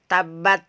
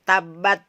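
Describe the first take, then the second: No difference in how they are said.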